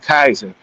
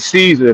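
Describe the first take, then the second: First: The word begins with a hard K sound. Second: The word begins with a soft S sound. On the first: This is how the ancient Romans said it. The speaker calls it right. "There is no soft C in Latin. It's all K" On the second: This is the modern English way of saying it. The speaker calls it wrong. "when we say Caesar, that's not what it actually was"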